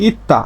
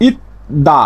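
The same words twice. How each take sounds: First: ইত্তা with a doubled t instead of d; changed consonant. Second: Said in the usual way. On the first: Shown as a demonstration. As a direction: say ইত্তা with a hard tt. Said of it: "এর উচ্চারণটা হবে ইত্তা". (ইত্তা, দ-এর বদলে ত) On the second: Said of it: "না হয়ে এর উচ্চারণটা হবে".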